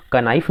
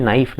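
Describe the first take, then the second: First: "कनाइफ" with the K sounded; wrong pronunciation demo. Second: "नाइफ" with a silent K; correct pronunciation demo. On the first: Teacher showing students the misreading, K voiced in "कनाइफ". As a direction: add a K syllable before N in "कनाइफ". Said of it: "कनाइफ नहीं पढ़ते". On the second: Teacher correcting the students' reading, "नाइफ" without K. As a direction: begin "नाइफ" straight on N. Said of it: "इसको हम पढ़ते हैं नाइफ". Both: Shown as a demonstration.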